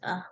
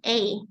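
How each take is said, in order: First: The word has a weak, reduced vowel. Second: The word has a full vowel. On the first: "they usually pronounce a" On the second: "this is a"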